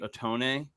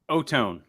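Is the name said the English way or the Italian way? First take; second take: Italian; English. First: The name is said with Italian sounds. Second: The name is said with plain English sounds. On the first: This is the traditional way of saying the name. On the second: This is how the name is normally said.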